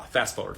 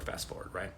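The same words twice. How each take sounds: First: Said in the usual way. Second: Fast forward dropped to a soft whisper; whispered aside. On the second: Shown as a demonstration. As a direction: breathe fast forward almost silently. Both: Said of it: "repeated phrase, second whispered".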